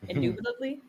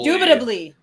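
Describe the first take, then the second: First: It is said flatly, like a question. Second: It is said with passion and energy.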